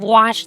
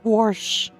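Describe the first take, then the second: First: The word is said in the standard way. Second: The word is said in an old-fashioned way. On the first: "Instead of wash" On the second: "they say wash"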